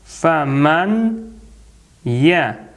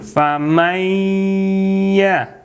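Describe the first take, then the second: First: The n is pronounced separately before the y. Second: The n merges into a doubled, nasalized y. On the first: "сакун у нас" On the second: "по таджвиду здесь надо сделать соединение"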